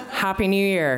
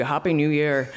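First: Higher-pitched mock Dublin Skerries accent. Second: Lightly imitated non-Irish accent; a hint of a foreign accent on the greeting; imagined foreign accent. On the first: Stranger greeting her at the party, Dublin Skerries accent. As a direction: imitate him in broad Dublin Skerries. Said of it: "in his Dublin Skerries accent". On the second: Woman imagining the tall stranger's reply, foreign accent. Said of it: "expecting him to kind of be".

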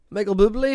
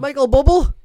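First: Said in the usual way. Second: "[name]" said as "bubble", high and loud; jokey mispronunciation. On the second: Pretend. Announcing famous Canadians, "[name]" mispronounced as "bubble". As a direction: call out "[name]" to rhyme with double. Jokey misreading, then the proper name.

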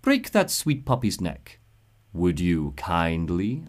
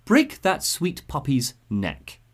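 First: Sinister smile. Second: Slow, deliberate command; serious order. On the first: Suchong finishing the boy off, smiling slow command. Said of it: "you can hear the smile in his voice". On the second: Suchong ordering the boy, much more serious. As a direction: spell out the order gravely. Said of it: "this time it's much more serious". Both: Acted.

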